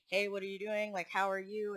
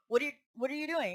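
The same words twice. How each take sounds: First: Casual, even-pitched friendly question; calm greeting. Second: Quick, higher-pitched demanding question; not calm. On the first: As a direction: imitate an easygoing hello at ordinary volume. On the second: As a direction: imitate a boss confronting an employee abruptly. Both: Retold or imitated. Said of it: "It wasn't calm".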